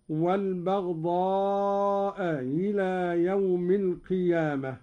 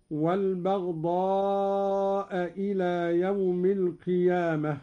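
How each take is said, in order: First: والبغضاء إلى with the hamza of إلى softened; eased second hamza. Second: Said in the usual way. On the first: Shown as a demonstration. Sheikh demonstrates Qalun's reading, إلى after والبغضاء begun on a softened hamza. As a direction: ease the start of إلى into a glide, neither full hamza nor h. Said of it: "بتسهيل الهمزة الثانية بين الهمزة والهاء هكذا". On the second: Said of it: "قرأ قالون بتسهيل الهمزة".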